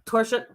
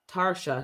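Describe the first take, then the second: First: The first syllable sounds like 'tore'. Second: The first syllable sounds like 'tar'. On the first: The speaker calls it wrong. "I know somebody named T O" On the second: The speaker calls it right. "you're T A, so it's Tarsha"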